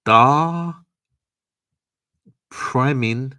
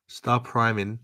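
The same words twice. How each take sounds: First: "star priming" called out high and loud, dragged over the typo; "star priming", pitched way up and loud like a quiz host; mock misreading. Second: Said in the usual way. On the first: Shown as a demonstration. Reading a viewer's typo out to chat, loud and high.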